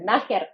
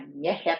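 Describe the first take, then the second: First: The first vowel is an 'a' sound. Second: The first vowel is an 'e' sound. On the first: The speaker calls it wrong. "не нахер" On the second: The speaker calls it right. "а нєхер"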